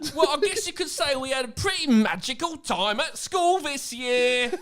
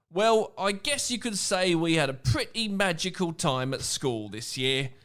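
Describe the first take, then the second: First: It is read in a silly idiot voice. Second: It is read in a normal reading voice.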